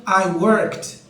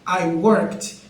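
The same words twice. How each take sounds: First: The ending is pronounced as a short t sound. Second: The ending is pronounced as a short t sound.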